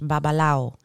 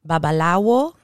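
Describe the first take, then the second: First: The w sound is dropped. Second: The w sound is clearly pronounced. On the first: "Like the W kind of disappears" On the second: "In Spanish, babalawo still works"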